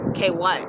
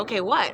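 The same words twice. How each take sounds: First: Low, pointed rude comeback. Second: Said in the usual way. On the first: Retold or imitated. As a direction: say it with rude disbelief. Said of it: "I didn't say it rudely". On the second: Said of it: "I didn't say it rudely like that".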